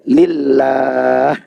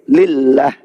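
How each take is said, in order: First: The vowel before the final h is held long. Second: The vowel before the final h is cut short. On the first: The speaker calls it right. "Harusnya dibaca lillah, panjang dua harakat" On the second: The speaker calls it wrong. "Ini dibaca pendek"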